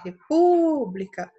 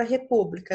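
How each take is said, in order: First: "república" called out with a drawn-out, louder PÚ; calling the word. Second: Said in the usual way. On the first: Shown as a demonstration. Teacher demonstrates the stressed syllable to pupils, calling out "república" with PÚ stretched. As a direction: stretch the PÚ of "república" long and loud. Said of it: "aquela brincadeira de chamar a palavra". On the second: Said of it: "brincadeira de chamar a palavra".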